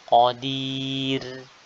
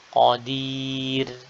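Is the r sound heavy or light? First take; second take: light; light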